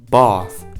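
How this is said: The word is said in a non-American accent.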